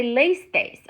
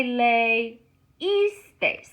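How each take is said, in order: First: "leísteis" run together as LAYS-tays; diphthong kept. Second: "leísteis" slowly as lay-EES-tays; accented I. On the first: Teacher showing what to avoid, "leísteis" as LAYS-tays. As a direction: say "leísteis" with the first i swallowed. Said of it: "I don't wanna say". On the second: Teacher showing the wanted form, "leísteis" slow as lay-EES-tays. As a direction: split "leísteis" after lay with a long EES. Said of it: "I'm gonna accent that I". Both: Shown as a demonstration.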